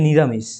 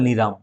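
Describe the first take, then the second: First: The word is said with all its syllables. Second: The word is said with its last syllable dropped. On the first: "একটা শব্দ আছে যে নিরামিষ" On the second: "পূর্ব মেদিনীপুর দিকে এই নিরামিষটাকে বলে নিরাম"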